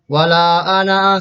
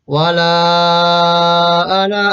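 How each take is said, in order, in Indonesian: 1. Vokal pada 'wala' dibaca pendek. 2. Vokal pada 'wala' dibaca lima ketukan. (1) "bukan bukan wala ana, salah" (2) "dibaca lima ketukan lamanya"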